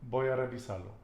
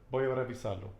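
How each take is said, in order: The two takes are said the same way.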